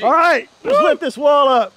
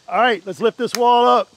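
First: The voice is lively with more energy. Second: The voice is flat with little energy. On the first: The speaker calls it right. "give me some energy. Is that better?" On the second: The speaker calls it wrong. "You don't sound too excited about it"

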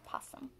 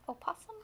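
First: The word starts straight with the 'p' sound. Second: The word starts with an extra 'o' sound. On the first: "you can say it either way" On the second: "oh is fine"

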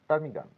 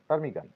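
The two takes are said the same way.

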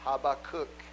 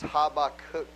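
First: The name is said the Hebrew way. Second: The same.

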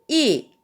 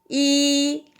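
First: It is said with the fourth tone. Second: It is said with the first tone. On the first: "4성은" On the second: "1성"

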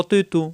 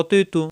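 No difference in how they are said.

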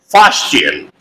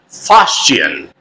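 Both takes have the same delivery.

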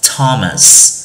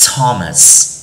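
The two takes are said the same way.

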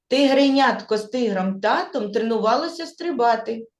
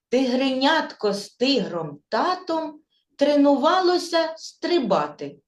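First: The sentence is spoken at a faster pace. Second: The sentence is spoken slowly. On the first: "Швидше повторимо" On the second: "Спочатку ми її скажемо повільно"

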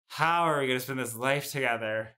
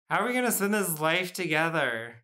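First: The tone sounds dreading and miserable. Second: The tone sounds excited and amazed. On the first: Sharing this life sounds awful. "Oh boy. Ugh. This sounds like a friggin' nightmare" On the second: Sharing this life is a wonderful gift. "it really depends on the tone"

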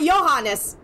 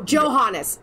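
First: The name is said the Norwegian way. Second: The name is said in a non-Norwegian way.

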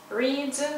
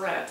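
First: The vowel is a long 'ee' sound. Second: The vowel is a short 'e' sound. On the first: The action happens habitually now. "it's usually present" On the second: The action is completed, as a participle. "past participle also read"

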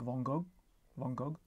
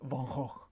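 First: The name is said with a French pronunciation. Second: The name is said with a guttural Dutch pronunciation. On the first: "in France, as far as I can gather, they say something like" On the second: "his actual real Dutch pronunciation is something like"

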